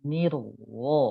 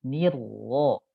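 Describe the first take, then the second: No difference in how they are said.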